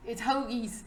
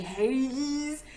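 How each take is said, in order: First: "hoagies" said with a round ho, like ho plus geese; proper hoagies. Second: "Hagies" said with a flat hay sound instead of ho; mock the wrong "Hagies"; mispronounced hoagies. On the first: Shown as a demonstration. Vlogger showing how a Philly native says hoagies. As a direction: correct the guy: "hoagies" with a long o. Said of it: "if you cannot say hoagies". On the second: Imitating the dude who can't say it right. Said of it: "Dude could not say hoagies to save his life".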